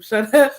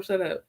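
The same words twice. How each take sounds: First: Mock snapped shut up. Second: Said in the usual way. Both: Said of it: "I'm not about to tell him".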